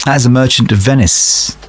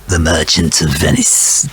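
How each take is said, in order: First: Said in the usual way. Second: Hammed-up Fagin; Fagin impression. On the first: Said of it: "that's more like Fagin". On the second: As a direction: put on a Fagin voice, lower and hissing on Venice. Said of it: "that's more like Fagin, really".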